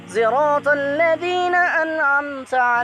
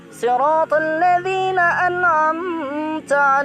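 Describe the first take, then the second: First: Sirat begins with a sound blending s and z. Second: Sirat begins with an emphatic, heavy s sound. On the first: This is the variant reading with ishmam. "antara shad dan yang diisyamkan" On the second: This is the standard reading. "Yang awalnya"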